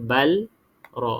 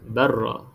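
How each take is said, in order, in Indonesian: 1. Bunyi L disebut berasingan sebelum R. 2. Bunyi L bergabung sepenuhnya dengan R yang digandakan. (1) "kita tak baca balra. Ha, ini salah" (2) "Kita baca barra"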